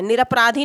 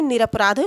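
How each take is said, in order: First: निरपराधी with an added long ee at the end; wrong form. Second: निरपराध ending on dh, no final ee; correct form. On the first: Teacher rejecting the extended word, wrong form. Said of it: "निरपराधी नहीं होता है". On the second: Teacher confirming the real word to students, correct form. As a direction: stop निरपराध at the dh. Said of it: "निरपराध शब्द है". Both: Shown as a demonstration.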